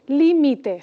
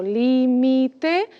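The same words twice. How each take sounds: First: Said in the usual way. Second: "límite" as lí, mi, te, slowly; slow "límite", syllables apart; split into syllables. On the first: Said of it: "la tónica es la que está primero". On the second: Shown as a demonstration. Teacher separating the word to count, slow syllables.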